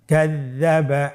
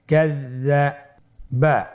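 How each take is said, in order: First: Said in the usual way. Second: কাযযাবা said very slowly, doubled য held long; slow careful reading. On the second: Shown as a demonstration. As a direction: stretch কাযযাবা out syllable by syllable. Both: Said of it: "আমার সাথে বলুন".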